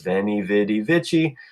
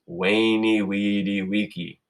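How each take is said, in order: First: Each word begins with a v sound. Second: Each word begins with a w sound. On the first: The speaker calls it wrong. "people in English pronounce that as" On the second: The speaker calls it right. "in Latin, that always makes a w sound"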